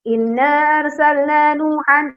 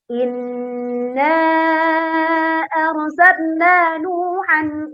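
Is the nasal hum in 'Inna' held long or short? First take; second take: short; long. First: It is rushed with a short nasal hum. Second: It is unhurried with a long nasal hum. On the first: The speaker calls it wrong. "terlalu tergesa-gesa, kurang dengung" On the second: The speaker calls it right.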